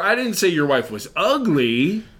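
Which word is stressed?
ugly. The stress is on "ugly".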